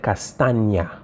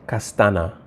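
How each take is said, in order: First: Castaña with a drawn-out NY sound; Spanish ñ. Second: Castana with a plain N sound. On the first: Teacher shows students what she said, Castaña with NY sound. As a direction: stretch Castaña, gliding the Ñ like N plus Y. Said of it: "She said Castaña". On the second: Teacher shows students what she didn't say, Castana with plain N. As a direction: say Castana with an ordinary N, no Y glide. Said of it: "she didn't say Castana". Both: Shown as a demonstration.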